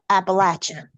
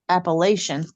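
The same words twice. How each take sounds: First: The middle has no 'sh' sound. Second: The middle has a 'sh' sound. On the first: The speaker calls it right. "there's no sh in there" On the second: The speaker calls it wrong. "getting people to stop saying Appalachian"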